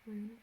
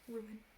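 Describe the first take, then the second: First: The word is said as one syllable. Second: The word is said as two syllables. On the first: Other people say it this way. "some people say rune" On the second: The speaker says it this way. "Like two syllables"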